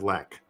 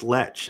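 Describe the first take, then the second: First: The word ends with a k sound. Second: The word ends with a ch sound. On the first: The speaker calls it wrong. "instead of Lek" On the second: The speaker calls it right. "I do think it's Lech"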